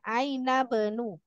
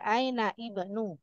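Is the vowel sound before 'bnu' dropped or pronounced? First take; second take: dropped; pronounced. First: The vowel before bnu is dropped and linked. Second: A separate i vowel is pronounced before bnu. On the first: The speaker calls it right. "ini dibaca Aina benu" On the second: The speaker calls it wrong. "Jangan dibaca Aina ibnu"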